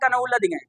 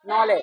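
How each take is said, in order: First: The word begins with a sounded k. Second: The word begins with an n sound. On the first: The speaker calls it wrong. "बचपन में कभी पढ़ा करते थे" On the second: The speaker calls it right. "सही माने में लिखा क्या है"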